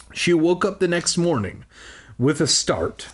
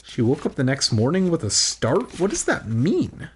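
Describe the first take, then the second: First: Said in the usual way. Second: "with a start" turned into a rising question; puzzled repeat. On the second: Real, not acted. Reader doubts the book's wording, puzzled questioning of "start". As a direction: quote it back, querying "start". Reader queries line just read.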